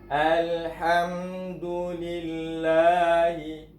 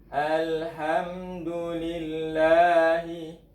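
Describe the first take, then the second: The two takes are said the same way.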